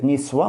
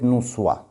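First: The first vowel is an i sound. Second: The first vowel is a u sound. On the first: The speaker calls it right. "с кесрой" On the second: The speaker calls it wrong. "с дамой"

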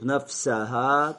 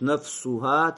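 First: The vowel after nafs- is 'a'. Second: The vowel after nafs- is 'u'. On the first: The word is a second object of the verb. "если мансуб" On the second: The word is the subject of a passive verb. "Если это именительный падеж"

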